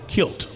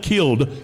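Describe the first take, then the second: First: The word is said in a Louisiana accent, ending in t. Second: The word is said plainly, ending in a d sound. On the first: "kilt. ... I love that little St. Louis, Louisiana accent" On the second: "Not killed"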